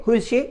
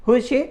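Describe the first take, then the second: The two takes are said the same way.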